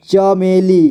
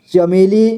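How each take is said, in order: First: चमेली split as च, मे, ली; syllable by syllable. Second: Said in the usual way. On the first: Shown as a demonstration. Teacher showing learners चमेली, sounded out in parts. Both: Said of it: "इसे पढ़ेंगे".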